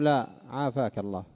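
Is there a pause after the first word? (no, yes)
yes. A short pause and tone change follow the first word. It is a refusal followed by a blessing. The speaker calls it right. "هذا فصل بسكتة وبتغير في نبرة الكلام"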